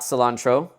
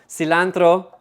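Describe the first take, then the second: First: It is said with a plain English accent. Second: It is said with a Spanish accent.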